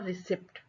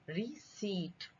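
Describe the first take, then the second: First: The word is said with a p sound. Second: The word is said with no p sound. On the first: The speaker calls it wrong. "ना रिसिप्ट" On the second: The speaker calls it right. "हम इसको पढ़ेंगे रिसीट"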